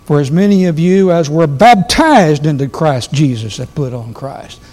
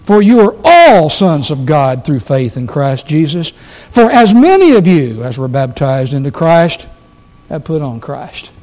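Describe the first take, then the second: First: "baptized" leaned on hardest, the rest carried lightly; weight the verse toward "baptized"; stress on baptized. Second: "all" lifted and held, "baptized" left unstressed; stress on all. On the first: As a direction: hit "baptized" as the key word. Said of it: "we'll read verse twenty-seven like this". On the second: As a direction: lean on "all" as the point. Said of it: "read it the way I think Paul meant it". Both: Shown as a demonstration.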